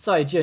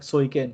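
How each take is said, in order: First: It is pronounced the Mandarin way. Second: It is pronounced the Cantonese way. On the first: "in Mandarin it's" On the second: "in what Cantonese it's like"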